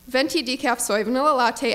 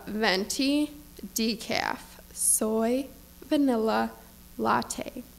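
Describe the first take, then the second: First: It is said fast, without a breath. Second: It is said with exaggerated slowness. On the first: The customer is rushing through the order. "He said without a breath" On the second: The customer is being condescending. "With exaggerated slowness"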